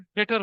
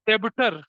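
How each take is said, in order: First: The b sound is left silent in the word. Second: The b sound is pronounced in the word. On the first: The speaker calls it right. "जबकि डेटर होता है वो" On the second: The speaker calls it wrong. "जैसे कुछ बच्चे बचपन में क्या बोलते हैं"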